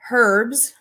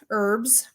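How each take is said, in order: First: Herbs said with a sounded H at the start. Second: Herbs said as erbs, no H; herbs with silent H. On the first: Trying both ways for viewers, herbs with the H. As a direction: breathe the H into herbs. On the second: Trying both ways for viewers, herbs with silent H. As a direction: drop the H and start herbs on the vowel. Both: Shown as a demonstration.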